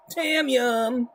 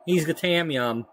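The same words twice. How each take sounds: First: Put-on voice. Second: Said in the usual way. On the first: Repeats the name in a put-on voice.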